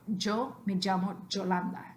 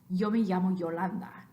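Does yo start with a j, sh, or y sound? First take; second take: j; y. First: The y is pronounced like j. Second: It has a Mexican y sound.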